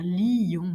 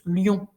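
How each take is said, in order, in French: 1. Le mot se prononce en deux syllabes. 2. Le mot se prononce en une seule syllabe. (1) "je peux exagérer la distinction" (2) "notre façon habituelle de prononcer lion"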